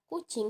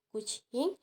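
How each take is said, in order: First: The C is a hard sound. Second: The C is a soft CH-like sound. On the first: This is the standard Indonesian pronunciation. "dalam bahasa Indonesia, kata kucing diucapkan dengan bunyi C yang keras" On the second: This is how Minangkabau speakers say it. "bunyi C diucapkan dengan lebih lembut seperti bunyi C H"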